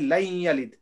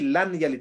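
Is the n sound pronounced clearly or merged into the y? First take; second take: merged; clear. First: The n merges into a nasalized y sound. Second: The n is pronounced clearly before the y. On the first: The speaker calls it right. "we say lain yalid" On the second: The speaker calls it wrong. "we don't say lan yalid"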